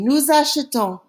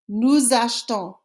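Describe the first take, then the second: First: The middle E of achetons is pronounced. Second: The middle E of achetons is dropped. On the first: "the first time we pronounced that E" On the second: "the second time we didn't"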